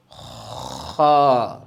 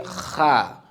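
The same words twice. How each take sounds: First: Kha with the rasp made first, full mouth. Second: Kha said thin, in an empty mouth; the wrong thin kha. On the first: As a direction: scrape the throat first, then Kha. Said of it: "Make the sound first". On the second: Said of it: "And don't say kha". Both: Shown as a demonstration.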